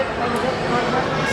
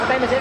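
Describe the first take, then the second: First: Slowly stretched "What time is it"; slow, drawn out. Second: Said in the usual way. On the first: Real, not acted. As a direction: drag out every word.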